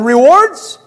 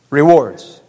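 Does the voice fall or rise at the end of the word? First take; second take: rise; fall. First: The voice rises at the end, like a question. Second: The voice falls at the end, like a statement. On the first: The speaker questions what heaven holds. "I have a question mark by that point" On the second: The speaker states what heaven holds. "See the inflection?"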